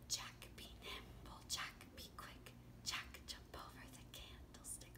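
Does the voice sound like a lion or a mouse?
mouse. It is said in a small mouse voice.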